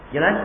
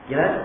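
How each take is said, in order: Both takes have the same delivery.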